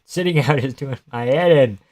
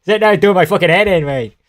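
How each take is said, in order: First: Said in the usual way. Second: Higher, louder, fast put-on British accent; mock British accent. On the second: Shown as a demonstration. Trying a British accent on his co-host, then a mock British accent. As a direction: try on a British accent, hammed up. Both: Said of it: "That's not the right accent".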